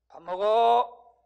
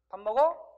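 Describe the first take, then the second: First: The voice falls at the end. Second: The voice rises at the end.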